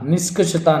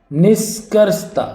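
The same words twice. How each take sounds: First: निष्कर्षता as "niskashata", without r; mispronounced निष्कर्षता. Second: निष्कर्षता slow and high, r sounded; careful pronunciation. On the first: Teacher rejecting an error, निष्कर्षता as "niskashata". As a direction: drop the r in निष्कर्षता. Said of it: "निष्कर्षता नहीं". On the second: Teacher giving the right form, निष्कर्षता with a clear r. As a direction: spell out "nis-kars-ta" slowly. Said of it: "ये सही होगा". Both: Shown as a demonstration.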